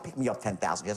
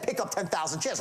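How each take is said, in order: First: The tone is soft, relaxed and disarming. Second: The tone is hard, pushy and not disarming. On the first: The speaker calls it right. "Disarming tone" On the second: The speaker calls it wrong. "Not like be saying pick up ten thousand shares, right? Not that at all"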